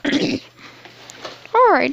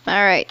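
First: Put-on throat cleared, light old-lady voice; grandma voice. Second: Said in the usual way. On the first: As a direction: settle back into playing granny. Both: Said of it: "Let me get my grandma voice back on".

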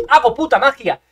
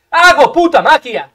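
First: Lively, emphatic brag; excited boast. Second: Loud, drawn-out triumphant brag; shouted boast. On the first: Gamer bragging about his play, excited boast. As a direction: boast it with punch. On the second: Gamer bragging about his play, long loud shout. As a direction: stretch it out and shout it. Boasts again, bigger take. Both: Real, not acted.

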